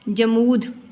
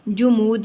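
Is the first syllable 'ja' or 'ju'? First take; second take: ja; ju. First: The first syllable has an 'a' vowel. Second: The first syllable has a 'u' vowel. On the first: The speaker calls it wrong. "ज़बर नहीं आएगी" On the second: The speaker calls it right. "सही तलफ़ुज़ है इसका जुमूद"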